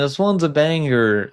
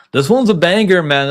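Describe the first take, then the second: First: Said in the usual way. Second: Higher and louder, hyped exclamation; excited. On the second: Real, not acted. Fan hyping a fight matchup to viewers, excited. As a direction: burst out with real excitement about the fight.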